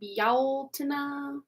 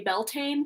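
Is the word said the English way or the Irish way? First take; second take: Irish; English. First: It is said with the Irish Gaelic pronunciation. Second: It is said as English spelling suggests. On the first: "if I remember correctly, it was like Bealtaine" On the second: "most people in the West just say Beltane because that's how it looks"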